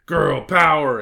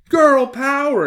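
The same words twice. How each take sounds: First: Loud cheer, moderately raised pitch; exclaimed rallying cry. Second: Very high, loud cheer; exclaiming little girl. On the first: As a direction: punch it out as a girl boss slogan. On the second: Hilary cheers for the packed lunch, exclaiming. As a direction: cheer it out in a high girlish shout. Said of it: "exclaimed Hilary". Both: A narrator's reading.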